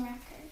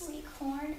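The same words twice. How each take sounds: First: "record" as a noun, REC-ord; stress on first syllable. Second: "Record" as a verb, re-CORD; stress on second syllable. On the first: Student echoing teacher's example, "record" stressed on REC. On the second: Student echoing teacher's example, "Record" stressed on CORD. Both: Shown as a demonstration.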